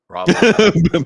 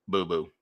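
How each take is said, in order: First: Raw boo boo much louder and higher; shouted raw boo boo; loud sound drop. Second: Said in the usual way. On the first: Retold or imitated. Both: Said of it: "I'm just gonna go".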